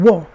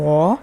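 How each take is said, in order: First: The pitch falls sharply from high. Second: The pitch dips low, then rises. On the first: It is a different word. "would be the fourth sound" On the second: It means me. "if it's the third sound"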